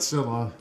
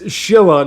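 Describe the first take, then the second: First: The name begins with an s sound. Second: The name begins with a sh sound. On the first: The speaker calls it wrong. "not Scylla. Mispronouncing it" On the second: The speaker calls it right. "it's Shilla"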